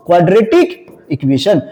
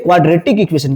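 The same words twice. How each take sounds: First: "quadratic", pause, "equation", drawn out slowly; slow repeat. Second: Said in the usual way. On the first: Shown as a demonstration. Teacher repeats a new term for class, slowly and separately. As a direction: spell out the new term at a slow, lower pitch.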